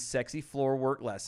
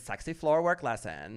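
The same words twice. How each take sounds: First: It is said in a plain, ordinary voice. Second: It is said higher-pitched with a lisp. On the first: The speaker calls it wrong. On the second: The speaker calls it right.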